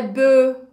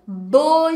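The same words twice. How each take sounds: First: "beau" wrongly said as "beu"; affected "beau" with rounded eu vowel; pronúncia afetada errada. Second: "Beau" with a Portuguese-like closed O; loud, clear French "Beau" as bô; pronúncia certa. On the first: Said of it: "não é beau". ("beau" errado, com som de "eu") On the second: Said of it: "gente, não é beau". ("Beau" com som de ô) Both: Shown as a demonstration.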